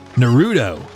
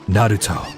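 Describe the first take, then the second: First: The name is said with an English-style pronunciation. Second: The name is said with a Japanese-style pronunciation. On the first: The speaker calls it wrong. "everybody in the English voice cast, like saying Naruto's name is" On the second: The speaker calls it right. "the only person doing like a proper pronunciation"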